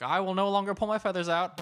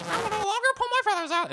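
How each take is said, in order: First: Higher put-on reciting voice; rehab pledge. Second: Very high, squawky mock recitation; parrot repeating. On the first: Leader walks into parrot rehab, mock-solemn raised recitation. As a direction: recite it like a mock group vow. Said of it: "one guy would walk in and just say". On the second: Rehab parrots repeat the pledge, hammed-up high bird voice.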